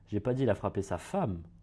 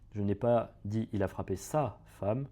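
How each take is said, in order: First: The word "femme" carries the strongest stress. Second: The word "sa" carries the strongest stress. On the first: He hit someone other than his wife. "là on est en train de dire qu'il a frappé quelqu'un d'autre que sa femme" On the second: He hit someone else's wife. "là on est en train de dire qu'il a frappé la femme de quelqu'un d'autre"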